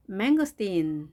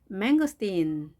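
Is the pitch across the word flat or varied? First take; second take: varied; varied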